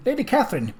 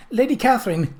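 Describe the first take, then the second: First: Calling again. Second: High, raised call of her name. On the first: Journalist calls Lady Catherine again as he arrives, high pitched. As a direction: call her name once more as he nears. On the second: Journalist running up calls out to Lady Catherine, high and raised. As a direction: hail her from a distance. Journalist calling out across lawn. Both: Acted.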